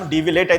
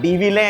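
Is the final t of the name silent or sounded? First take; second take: sounded; silent. First: The name ends with a clear final t sound. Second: The name ends without a final t sound. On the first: This is how people here say it, going by the spelling. "మనం డివి లేట్ అయితే అంటారు" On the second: This is how the French say the name. "వాళ్ళేమో డివిలే అయితే అంటారు"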